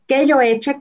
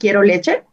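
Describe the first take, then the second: First: The r and l sounds are left out. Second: The r and l sounds are fully pronounced. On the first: The speaker calls it wrong. "si los niños dicen eh, eche, que yo eche" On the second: The speaker calls it right. "por decir quiero leche"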